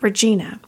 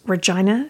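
First: Regina is said in a way locals don't use. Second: Regina is said the way locals say it. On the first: The speaker calls it wrong. "and not Regina" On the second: The speaker calls it right. "I pronounce Regina, Saskatchewan correctly"

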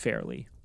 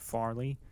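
First: The first vowel sounds like air. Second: The first vowel sounds like ah. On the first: The speaker calls it right. "it's Fairley" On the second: The speaker calls it wrong. "high stress on the ah sound when you see an A"

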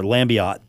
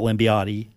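First: The final E is not pronounced at all. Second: The final E is pronounced as a sound. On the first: The speaker calls it right. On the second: The speaker calls it wrong.

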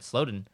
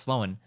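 First: The name has a d sound in the middle. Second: The name has no d sound in the middle. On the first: The speaker calls it wrong. "he said Slowden" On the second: The speaker calls it right. "instead of Slowen"

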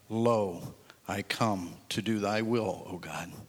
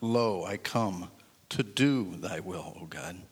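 First: No special stress falls on do. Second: The stress falls on the word do.

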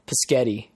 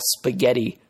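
First: The word starts with a p sound. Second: The word starts with an sp sound. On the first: The speaker calls it wrong. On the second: The speaker calls it right.

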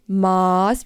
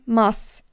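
First: The vowel sounds like the one in Maßband. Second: The vowel differs from the one in Maßband. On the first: This is the word for a measure. The speaker calls it wrong. "nicht Maß wie das Maßband" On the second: This is the beer mug of one liter. The speaker calls it right. "sondern Maß"

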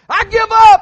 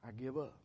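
First: It sounds bold and triumphant. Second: It sounds weary and defeated.

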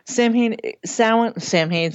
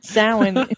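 First: It is said as spelled, sounding the h. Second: It is said with the traditional pronunciation. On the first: The speaker calls it wrong. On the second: The speaker calls it right.

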